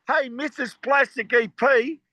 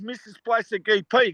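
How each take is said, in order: First: Drawn-out, half-hearted yell upstairs-to-downstairs; retold calling out. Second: Said in the usual way. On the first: Band calling his secret wife for coffee, retold yell. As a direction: mildly imitate calling out to someone. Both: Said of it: "So we used to yell at".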